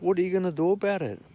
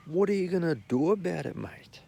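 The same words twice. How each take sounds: First: Fast, higher challenge; defiant comeback. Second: Whispered defiant challenge; whispered comeback. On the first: Confronting the guy claiming his seat, fast and defiant. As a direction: fire it back at him. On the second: Muttering back at the festival guy, whispered challenge. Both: Retold or imitated.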